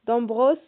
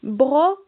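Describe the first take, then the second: First: Said in the usual way. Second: "Brosse" loud, with a long hissed S and detached ending; stretched final S. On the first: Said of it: "Est-ce qu'on entend le S". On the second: Shown as a demonstration. Teacher has children listen for S in brosse, stretched final S. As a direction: hold the S at the end of "Brosse". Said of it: "Est-ce qu'on entend le S dans".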